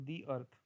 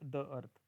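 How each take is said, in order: First: The article sounds like 'thee'. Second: The article sounds like 'thuh'. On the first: The speaker calls it right. "Pronunciation दी असं करतो" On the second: The speaker calls it wrong. "Not"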